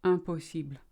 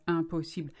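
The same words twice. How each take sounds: First: "Impossible" with light L; French impossible. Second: "Impossible", even syllables, light L; French impossible. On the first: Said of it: "very light L on the end". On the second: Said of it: "same height, the same weight". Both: Shown as a demonstration.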